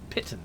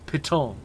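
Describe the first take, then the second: First: It is said the British, English-like way. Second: It is said the American, French-like way. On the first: "instead of piton" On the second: "as an American I have more French pronunciations"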